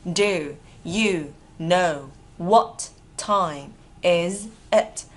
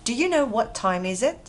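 First: Very slow, separated words; drawn-out, deliberate teaching model. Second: Words connected in one smooth question; linked reading. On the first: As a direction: dictate it to learners with pauses. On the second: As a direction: run the words together at natural speed. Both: Shown as a demonstration. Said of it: "Đọc nối ha".

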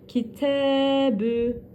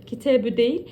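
First: Kitebü slow with T vowel drawn out one elif; stretched vowel. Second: Said in the usual way. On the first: Shown as a demonstration. Teacher showing the right long reading. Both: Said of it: "T'yi bir elif miktarı uzatacağız".

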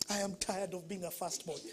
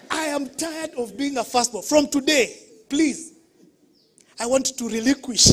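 First: Retold complaint. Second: Louder, higher pleading outburst; mock tearful plea. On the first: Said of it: "And I said". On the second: Firstborn pleading with parents at the meeting, louder and pleading. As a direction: plead like a fed-up child. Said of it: "but that day I was crying".

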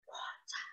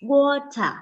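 First: Breathy whisper, no voice; whispered echo. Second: Said in the usual way. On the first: Shown as a demonstration. Teacher whispers the word for the class to repeat. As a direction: whisper it back like a child's turn. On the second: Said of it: "repeat after me".

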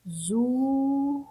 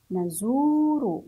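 First: نزور split into na, zuu, ru; نزور in separate, drawn-out syllables. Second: نزور joined as one word, long zuu; نزور in one slow, connected sweep; blended slowly. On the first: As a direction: sound out نزور very slowly, higher, with long zuu. Teacher breaks word into syllables. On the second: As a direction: say نزور whole but stretched. Same word then blended whole. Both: Shown as a demonstration.

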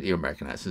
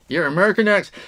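First: Said in the usual way. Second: Hammed-up American accent, high and loud; exaggerated American twang, pitched up. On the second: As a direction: put on a playful, punched-up American voice. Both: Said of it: "your American accent is really good".

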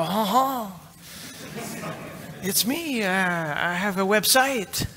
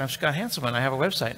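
First: Much higher, slow, dopey caller voice; goofy self-impression. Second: Said in the usual way. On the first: Host phoning the hosting company about his site, high slow dopey voice. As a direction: play yourself as a clueless caller. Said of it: "I go".

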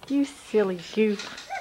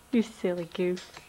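First: Said in the usual way. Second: Softer, lower teasing murmur. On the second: Real, not acted. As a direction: tease him gently under your breath. Teasing toddler, said twice.

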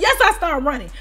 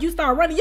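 First: "Yes" hit firmly, then falling statement; retold emphatic answer. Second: "running" lifted into a rising question; retold disbelieving question. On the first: Storyteller answering staff about the chase, firm stress on "Yes". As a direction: confirm it with a punched "Yes". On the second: Staff questioning her about the chase, rising question on "running". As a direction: ask it back, rising on "running". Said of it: "So they was like".

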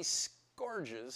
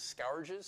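First: "scourges" said with an OR vowel, like "scorges". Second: "scourges" said with an OW vowel, like "scowerges", questioning. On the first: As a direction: say "scourges" to rhyme with "gorges". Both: Shown as a demonstration.

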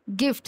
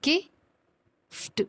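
First: Said in the usual way. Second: गिफ्ट stretched slowly, ending ft sound barely voiced; drawn-out blend demo. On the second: Shown as a demonstration. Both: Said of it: "silent सा sound सुनाई देगा".

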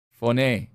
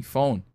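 First: "Phone" in two syllables, foh-NAY; Greek pronunciation. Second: Said in the usual way. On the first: Shown as a demonstration. Preacher showing the congregation the Greek word, "Phone" pronounced foh-NAY. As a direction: say "Phone" with a sounded final E, like "nay". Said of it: "that's how it's pronounced". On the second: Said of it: "That's how, that's how it's pronounced".

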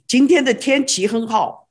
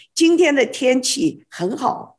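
First: 今天的天气很好 in quick Sichuan dialect, fast. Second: 今天的天气很好 in clean standard Mandarin tones. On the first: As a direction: rattle it off Sichuan style. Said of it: "But Sichuan ... and we say". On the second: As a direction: say it the textbook Putonghua way. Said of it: "But Mandarin will say". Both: Shown as a demonstration.

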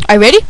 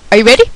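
The two takes are said the same way.

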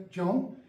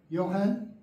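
First: "John" with a hard English J, rising at the end; J-sound John. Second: "Johann" begun with a Y glide, rising at the end; Y-sound Johann. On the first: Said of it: "J, John". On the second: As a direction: say "Johann" the German way, yo-hahn. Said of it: "Do you see the difference? Y". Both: Shown as a demonstration.

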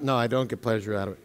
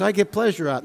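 First: Quick, much softer self-correction; quick muttered correction. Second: Said in the usual way. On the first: Real, not acted. Pastor quickly correcting his own joke to the congregation, muttered. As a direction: take it back under your breath, fast.

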